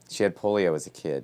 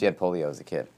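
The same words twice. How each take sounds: First: The sentence is spoken slowly and deliberately. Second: The sentence is spoken at a normal, quicker pace.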